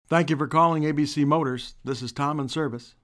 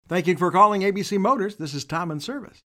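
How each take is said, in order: First: It sounds glum and a little bummed out. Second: It sounds cheerful, spoken through a broad smile.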